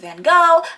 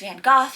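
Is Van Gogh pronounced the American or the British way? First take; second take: American; British. First: It is said with an American pronunciation. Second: It is said with a British pronunciation. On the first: "the American pronunciation is Van Gogh" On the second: "The British pronunciation is Van Gogh"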